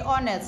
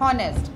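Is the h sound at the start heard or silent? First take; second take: silent; heard. First: The word begins with a vowel, no h sound. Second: The word begins with an audible h sound. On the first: The speaker calls it right. "we say honest ... H is silent" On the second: The speaker calls it wrong. "not honest"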